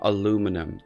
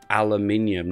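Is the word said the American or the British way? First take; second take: American; British. First: It is said the American way, with four syllables. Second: It is said the British way, with five syllables.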